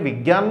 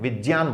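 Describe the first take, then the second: First: The cluster is pronounced with a 'gy' sound. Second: The cluster is pronounced with a 'jy' sound. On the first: The speaker calls it wrong. "शुद्ध उच्चारण करने वाले विज्ञान नहीं बोलते हैं" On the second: The speaker calls it right. "विज्ञान बोलते हैं, और विज्ञान ही सही है"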